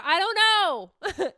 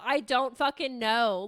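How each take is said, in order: First: Whiny drawn-out I don't know. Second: Said in the usual way. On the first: Retold or imitated. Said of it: "I just told myself one day in the car".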